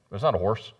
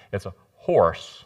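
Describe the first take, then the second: First: Said in the usual way. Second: Texas "horse" stretched out, with an extra syllable; Texas drawl. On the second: Shown as a demonstration. Preacher drawling "horse" as Texans say it. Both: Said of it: "You have to add that extra syllable in".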